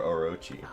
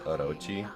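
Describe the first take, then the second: First: The name is said with English-style pronunciation. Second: The name is said with Japanese pronunciation.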